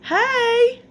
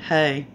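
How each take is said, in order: First: It is said in a happy, cheerful tone. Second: It is said in a solemn, serious tone.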